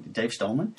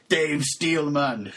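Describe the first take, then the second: First: Said in the usual way. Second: "Dave Steelman" drawn out slowly and firmly; triumphant name. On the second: Real, not acted. Podcaster landing on the right name, "Dave Steelman" slow and emphatic.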